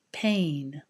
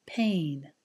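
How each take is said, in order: First: "Pain" with a long, gliding A as in day; long A vowel. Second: "Pain" said again with the same long A as in day; long A vowel. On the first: Teacher modelling "Pain" for the class, long A. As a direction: stretch the A in "Pain", lips spread. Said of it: "comparing the eh sound ... to the A sound". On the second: Teacher repeating "Pain" for students, long A. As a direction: lips spread, glide the A in "Pain". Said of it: "Now listen again and repeat". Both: Shown as a demonstration.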